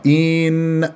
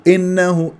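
First: The first vowel is drawn out long. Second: The first vowel is clipped very short. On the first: "يمطها" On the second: "يختلس هذه الكسرة"

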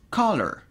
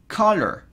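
First: The c at the start is strongly marked. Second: The c at the start is strongly marked.

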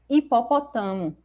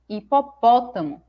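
First: The stress falls on a syllable other than 'po'. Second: The stress falls on the syllable 'po'. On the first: The speaker calls it wrong. "Aqui em cima eu poderia ler assim" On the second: The speaker calls it right. "a pronúncia correta é hipopótamo, porque o acento está me mostrando qual é a sílaba tônica"

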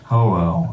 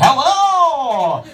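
First: The greeting sounds low and depressed. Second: The greeting sounds bright and upbeat.

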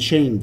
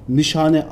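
First: The name is said as two syllables, 'nee-shane'. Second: The name is said as three syllables, 'nee-shah-neh'. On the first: This is how Americans say the name. "Amerikalılar falan nişeyin diyor" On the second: This is the name's actual pronunciation. "Nişane aslında"

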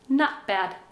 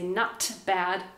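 First: The phrase is said quickly with the T in 'not' barely heard. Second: The phrase is said slowly with a clear T in 'not'. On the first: "but we say it fast" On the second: "I can say not bad"

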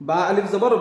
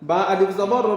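No difference in how they are said.

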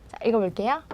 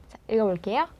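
Both takes have the same delivery.

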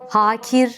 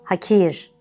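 First: A vowel in the word is drawn out long. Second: All vowels in the word are kept short. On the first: The speaker calls it wrong. "Uzatılmayıp kısa söylenmesi gereken" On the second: The speaker calls it right. "kısa söylenmesi gereken"

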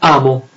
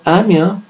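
First: The word is said plainly, with no added sound. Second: An 'ee' sound is inserted before the final vowel. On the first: "la stessa parola amo" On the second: "diventa amio"

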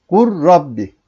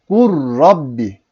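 Both takes have the same delivery.

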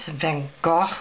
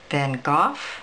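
First: The name ends with a gurgling throaty sound. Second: The name ends with an f sound. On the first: "kind of a gurgly sound" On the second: "where the GH is an F sound"

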